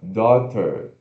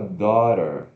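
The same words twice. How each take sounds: First: The middle consonant is a clear T sound. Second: The middle consonant sounds like a quick R. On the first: "T, schwa R, ter, daughter" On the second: "esse T aqui, ele pode ter um som de R, então fica daughter"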